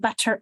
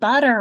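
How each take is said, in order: First: The middle consonant is a clear t sound. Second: The middle consonant is a soft d sound. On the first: This follows the spelling, not everyday speech. "literally and, and honestly actually say" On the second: This is how people naturally speak. "It becomes a d sound"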